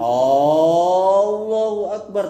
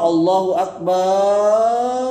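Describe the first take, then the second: First: The opening vowel of Allahu is drawn out. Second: The opening vowel of Akbar is drawn out. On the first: It turns into a question about God. "dengan memanjangkan hamzah pada lafaz Allah" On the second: It asks whether God is the greatest. "dengan memanjangkan hamzah pada lafaz"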